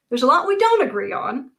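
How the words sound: It sounds smiling and lighthearted.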